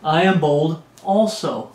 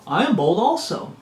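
First: Slow, measured boast read out; deliberate boast. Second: Swooping, sing-song repeat of a boast; playful boast. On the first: Preacher reading Paul's boast, slow and deliberate. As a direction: take your time over each word. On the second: Preacher mimicking Paul's foolish boasting, swooping playful voice. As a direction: swing the pitch up as if showing off. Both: Acted.

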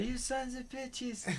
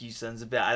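First: Slow, much higher mock outcry; mock yell. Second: Said in the usual way. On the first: Yelling at the movie screen, slow and high. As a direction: stretch it out in pitched-up fake outrage. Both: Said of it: "that's why I was yelling out".

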